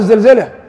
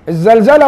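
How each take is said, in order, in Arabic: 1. الحركة الأولى هي 'i'. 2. الحركة الأولى هي 'a' مفتوحة. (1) "بكسر ازاي" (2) "بفتح ازاي"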